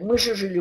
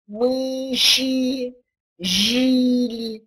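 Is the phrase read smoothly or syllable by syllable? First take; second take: smoothly; syllable by syllable. First: The phrase is read smoothly as connected speech. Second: The phrase is read in separate syllables. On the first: "Читает" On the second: "Так не произносят по-русски"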